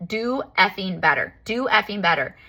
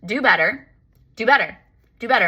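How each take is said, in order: First: Mock scream. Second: Higher, louder sassy repeats; sassy demand. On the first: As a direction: stretch each word in retold fury. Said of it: "And I started screaming". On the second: Retold or imitated. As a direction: fire off each demand at the universe with attitude. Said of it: "This is how sassy I was".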